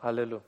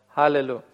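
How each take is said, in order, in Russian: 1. Сразу начинается с гласного. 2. Начинается с лёгкого звука «х». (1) "современные евреи сказали бы «аллелю»" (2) "не произнести вот этого царапающего звука «х»"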